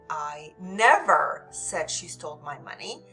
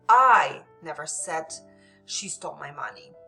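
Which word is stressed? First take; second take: never; I. First: The stress falls on the word never. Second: The stress falls on the word I. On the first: The speaker absolutely did not say it. "This is absolutely did not say it" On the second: Someone else said it, not the speaker. "So this would indicate someone else's might have said it, but not me"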